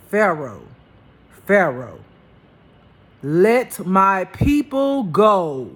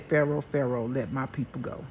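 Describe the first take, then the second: First: Loud, slow, booming God voice. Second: Milder retold God voice, no boom; a quieter second try at God's command; softer retelling of God. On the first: Retold or imitated. Loud, slow voice of God commanding Pharaoh. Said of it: "I wanna say it like he said". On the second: A second, softer try at God's command to Pharaoh. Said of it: "I can't say it the way he did".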